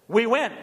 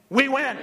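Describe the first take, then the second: First: It is said plainly, without special conviction. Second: It is said forcefully, with full conviction.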